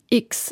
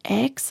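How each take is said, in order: First: The letter is said the German way, as 'iks'. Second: The letter is said the English way, as 'eks'.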